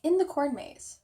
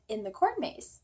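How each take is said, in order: First: "In the corn maze" repeated higher and louder in disbelief; incredulous echo. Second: Said in the usual way. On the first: Retold or imitated. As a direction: echo the dad's words as if you can't believe them. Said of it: "I'm serious". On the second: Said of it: "And he said".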